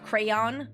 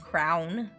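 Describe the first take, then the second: First: The word is said carefully with two syllables. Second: The word is squeezed into one syllable, like crown. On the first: This is the careful form used to be understood. "I have to emphasize when I say crayon" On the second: This is the natural home-accent form. "I say crown because that's how I always pronounced it growing up"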